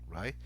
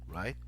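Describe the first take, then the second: Both takes have the same delivery.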